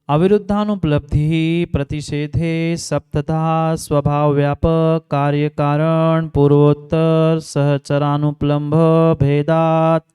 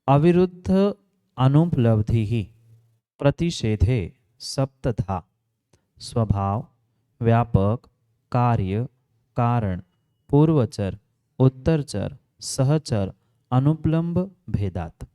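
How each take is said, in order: First: It is read at a normal pace. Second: It is read very slowly.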